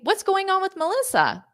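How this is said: It is said in a cheerful, upbeat tone. It is a general question about the person's life. "If I say it in a more upbeat way"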